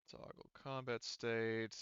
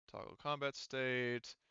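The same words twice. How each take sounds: The two takes are said the same way.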